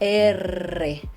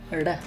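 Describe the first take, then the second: First: The R is rolled as a long trill. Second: The R is one soft, light tap. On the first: "It's not just one tap. It's like a, a trill" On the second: "Very soft, not a lot of air coming out"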